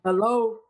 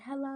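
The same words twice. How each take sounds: First: The voice is harsh and blunt. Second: The voice is soft and gentle.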